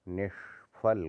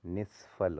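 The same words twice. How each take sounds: First: निष्फल split slowly as "nesh - phal"; wrong heavy sh. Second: निष्फल as "nisphal"; lighter sibilant. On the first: Teacher showing the error, निष्फल slow with heavy sh. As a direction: hold a retroflex sh in निष्फल. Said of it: "गलत है". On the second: Teacher correcting it, निष्फल with light s. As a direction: say निष्फल with s-like sound. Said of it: "होता है". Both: Shown as a demonstration.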